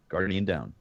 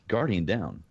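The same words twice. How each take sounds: The two takes are said the same way.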